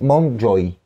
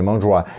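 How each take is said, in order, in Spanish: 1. El nombre se pronuncia a la manera inglesa. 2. El nombre se pronuncia a la manera francesa. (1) "no sé cómo se pronuncia en inglés" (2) "yo lo digo en francés"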